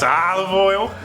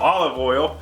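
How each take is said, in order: First: It is said in a silly, odd way. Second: It is said in a plain, ordinary way. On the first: "I have to say it like an idiot" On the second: "normally I call olive oil"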